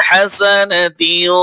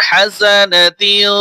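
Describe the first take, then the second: The two takes are said the same way.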